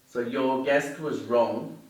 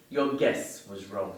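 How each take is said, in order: First: "guest" with a crisp, fully sounded final t; exaggerated word endings. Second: "guess" said with no t at the end; dropped final t. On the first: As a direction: slowly hit the t at the end of "guest". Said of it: "Here's a couple of examples for you". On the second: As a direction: let "guess" end on a plain s sound. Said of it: "if I don't pronounce the final consonant sound". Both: Shown as a demonstration.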